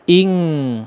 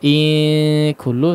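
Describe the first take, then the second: First: The nasal is an ng sound. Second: The nasal is a clear n sound. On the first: The speaker calls it right. "tapi ing, langsung ang bunyinya" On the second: The speaker calls it wrong. "Tidak in kullu"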